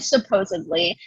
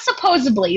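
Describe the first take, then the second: First: The middle consonant is a d sound. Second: The middle consonant is a b sound. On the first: The speaker calls it right. "it's probably and supposedly" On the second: The speaker calls it wrong. "It's not supposedly. There's no fucking B in that word"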